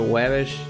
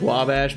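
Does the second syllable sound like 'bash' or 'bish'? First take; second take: bish; bash. First: The second syllable has an 'i' vowel, like 'bish'. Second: The second syllable has an 'a' vowel, like 'bash'. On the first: This is a deliberate mispronunciation to tease people. The speaker calls it wrong. "I used to call it Wabish" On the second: This is the street's real name. The speaker calls it right. "in Chicago there's a street called Wabash"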